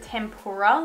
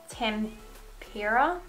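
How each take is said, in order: First: It sounds like the fried food tempura. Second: It sounds like tempera, unlike the food. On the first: The speaker calls it wrong. "I said tempura, like as in like tempura prawns" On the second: The speaker calls it right. "I think it's tempera is how you say it"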